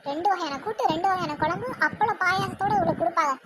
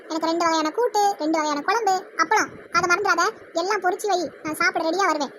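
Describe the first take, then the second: First: Understated, sarcastic echo; mocking echo. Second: Brisk, open-voiced lunch order; bossy ordering. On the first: Daughter-in-law echoes the lunch order behind her back, mocking. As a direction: repeat the order as a derisive aside. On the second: Mother-in-law orders lunch from daughter-in-law, bossy. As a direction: list the dishes as orders.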